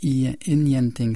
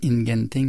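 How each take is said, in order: First: The middle consonant sounds like a y. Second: The middle consonant sounds like a hard g. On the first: The speaker calls it right. "mais c'est Inyanting" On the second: The speaker calls it wrong. "J'avais prononcé Ingenting"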